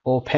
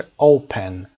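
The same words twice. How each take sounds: First: "Open" with the stress moved onto -pen; mis-stress "Open" as o-PEN; wrongly stressed second syllable. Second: "Open" with the first syllable hit hard; stress on first syllable. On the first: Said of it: "نمیگیم این رو". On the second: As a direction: punch the O of "Open", let the end drop. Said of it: "استرس رو هم گذاشته". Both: Shown as a demonstration.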